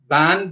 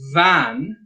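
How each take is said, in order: First: The word begins with a b sound. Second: The word begins with a v sound.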